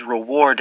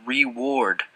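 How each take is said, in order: First: Said in the usual way. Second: "reward" said as REE-ward; Southern pronunciation. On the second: A narrator's reading. Narrator showing how the fat man says "reward", as REE-ward. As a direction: stretch the first syllable of "reward" to a long ee. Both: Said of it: "he pronounces reward as reward".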